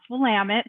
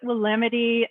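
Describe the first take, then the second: First: It is said the local Oregon way. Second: It is said the common outsider way. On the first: The speaker calls it right. "it's pronounced Willamette" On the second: The speaker calls it wrong. "A lot of people pronounce it Willamette"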